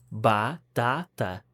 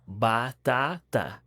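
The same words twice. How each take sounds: The two takes are said the same way.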